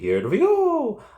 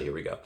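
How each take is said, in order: First: It is said in a Mario impression voice. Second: It is said in a plain, normal voice.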